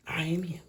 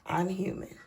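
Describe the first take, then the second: First: Soft whispered confession. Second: Said in the usual way. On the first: Acted. Whispering to viewers that she is human. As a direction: breathe it like a secret. Repeats line, then whispers it.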